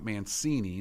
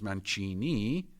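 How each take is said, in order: First: It is said with an American pronunciation. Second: It is said with an Italian pronunciation. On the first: The speaker calls it wrong. "not Mancini. That's you uh, American sounders" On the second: The speaker calls it right. "my name is Mancini"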